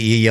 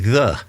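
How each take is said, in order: First: The word begins with a y sound. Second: The word begins with a th sound. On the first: This is how people commonly read the old letter. The speaker calls it wrong. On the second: This is what the old letter really stood for. The speaker calls it right. "but actually the ye is actually the"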